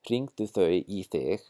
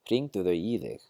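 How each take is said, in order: First: The pronoun starts with a voiceless th sound. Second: The pronoun starts with a voiced th sound.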